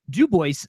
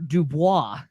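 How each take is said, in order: First: It is said with an English-style pronunciation. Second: It is said with a French pronunciation. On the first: This is how the place name is said locally. "it is pronounced Dubois" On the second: This is how the trapper's original name is said. "the French trapper Dubois"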